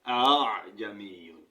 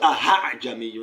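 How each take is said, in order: First: The second hamza is softened and eased. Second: The second hamza is pronounced as an h. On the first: The speaker calls it right. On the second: The speaker calls it wrong. "Not to aha jamiyun"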